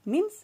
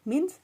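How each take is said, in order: Both takes have the same delivery.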